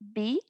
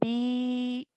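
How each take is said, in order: First: The vowel is short, held one count. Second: The vowel is long, held two counts. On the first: "for the kasra, I only pronounced it for one count" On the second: "for the vertical kasra, I pronounced it for two counts"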